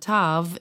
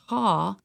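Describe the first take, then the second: First: The word ends with a V sound. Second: The word ends with a W sound. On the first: This is the modern Hebrew pronunciation. "versus the tav in modern Hebrew" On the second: This is the ancient Hebrew pronunciation. "It was a W sound, so it's a ta in ancient Hebrew"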